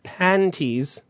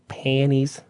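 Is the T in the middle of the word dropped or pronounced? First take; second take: pronounced; dropped. First: The T sound in the middle is pronounced. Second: The T sound in the middle is dropped.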